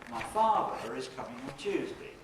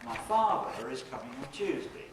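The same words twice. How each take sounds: First: It is split into two phrases after father. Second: It is split into two phrases after father.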